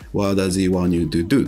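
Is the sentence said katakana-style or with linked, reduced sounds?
linked. The words run together with reduced, linked sounds. The speaker calls it right. "What does he want you to do? っていうことです"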